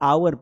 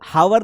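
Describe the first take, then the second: First: The word begins directly with a vowel sound. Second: The word begins with a clear h sound. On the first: The speaker calls it right. "इसको आवर पढ़ेंगे" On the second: The speaker calls it wrong. "इसको हावर नहीं पढ़ेंगे"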